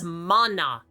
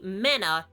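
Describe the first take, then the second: First: The first vowel is an open 'ah' sound. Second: The first vowel sounds like 'a' in 'man'. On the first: The speaker calls it right. "It's mana" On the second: The speaker calls it wrong. "tell me mana is even half as cool sounding"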